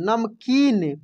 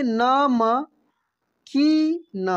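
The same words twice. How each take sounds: First: Said in the usual way. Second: नमकीन stretched very slowly, each syllable separate. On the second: Shown as a demonstration. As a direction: sound out नमकीन slowly for the class. (नमकीन को धीरे धीरे खींचकर बोलिए) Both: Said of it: "क्या पढ़ेंगे हम लोग?".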